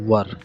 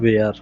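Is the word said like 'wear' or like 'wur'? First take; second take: wur; wear. First: The word has a short 'ur' vowel, like 'wur'. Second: The word rhymes with 'air', like 'wear'. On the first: The speaker calls it right. "इसे हमें बोलना है वर" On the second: The speaker calls it wrong. "जबकि ये बिल्कुल गलत pronunciation है"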